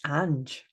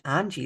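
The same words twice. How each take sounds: First: Ange said as one syllable, anj with no ee ending; short Ange, the right way; corrected name Ange. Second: Angie said as AN-jee with the ee ending; name read out as Angie before the correction; wrong name Angie. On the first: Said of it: "it's not even Angie". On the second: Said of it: "it's not even Angie, it's Ange". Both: Shown as a demonstration.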